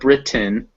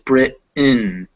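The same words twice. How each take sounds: First: The T is fully pronounced before the N. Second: The T becomes a glottal stop before the N. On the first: "instead of Britain" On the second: "it's Britain. So you can hear there's still that my throat chokes up"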